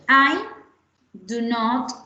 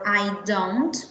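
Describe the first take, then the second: First: Do and not are said as separate words. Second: Do and not are merged into one syllable. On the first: "do not" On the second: "don't es un poco más corta y es un poco más fácil de decirlo"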